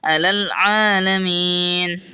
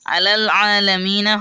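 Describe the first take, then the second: First: The last word ends on a bare 'n' sound. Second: The last word ends with an added 'a' vowel. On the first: The speaker calls it right. "আলাল আলামিন হবে জবরটা বাদ যাবে" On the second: The speaker calls it wrong. "নুন জবর না এটা হবে না"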